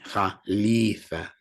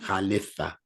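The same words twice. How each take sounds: First: The vowel after the L is a long ee. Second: The vowel after the L is a short i. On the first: The speaker calls it right. "the sound for pronunciation's sake is double E" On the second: The speaker calls it wrong.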